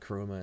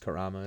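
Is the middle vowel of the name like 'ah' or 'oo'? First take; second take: oo; ah. First: The middle vowel sounds like 'oo'. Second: The middle vowel sounds like 'ah'. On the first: The speaker calls it wrong. "it's not Kuruma" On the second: The speaker calls it right. "It's Kurama"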